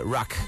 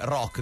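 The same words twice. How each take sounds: First: The word is said with an English-like accent. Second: The word is said with a plain Italian accent. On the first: "si cercava un tono anglofono" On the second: "non dice rock"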